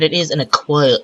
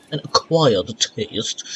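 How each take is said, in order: First: Said in the usual way. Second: Slow, stretched "acquired taste"; drawn-out ACQUIRED. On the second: Pretend. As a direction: drag out "acquired" in a put-on voice. Repeats the phrase, drawn out.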